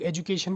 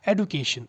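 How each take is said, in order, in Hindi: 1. पहले स्वर के बाद वाला व्यंजन 'j' है। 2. पहले स्वर के बाद वाला व्यंजन 'd' है। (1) "बहुत सारे लोग एजुकेशन बोलते हैं" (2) "व्हाट यू शुड से"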